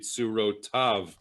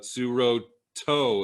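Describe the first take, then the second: First: The word ends with the syllable 'tav'. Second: The word ends with the syllable 'to'. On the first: This is the traditional corrected reading. The speaker calls it right. "you should really pronounce it like there's a yud there" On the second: This is the reading as it is written in the scroll. The speaker calls it wrong. "It looks like without the yud"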